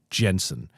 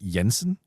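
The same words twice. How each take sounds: First: The name starts with a D sound. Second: The name starts with a Y sound. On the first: "the D beforehand" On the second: "right with the Y sound"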